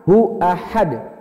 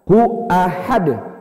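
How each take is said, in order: No difference in how they are said.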